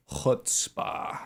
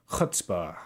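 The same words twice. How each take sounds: First: Chutzpah whispered with a throaty ch; whispered guttural chutzpah. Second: Chutzpah with a rasping throat ch; guttural chutzpah. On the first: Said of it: "Whip out the Rusa". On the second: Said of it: "I can whip out the guttural trill". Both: Shown as a demonstration.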